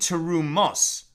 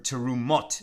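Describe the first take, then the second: First: It is said in a non-Sephardic pronunciation. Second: It is said in a Sephardic pronunciation.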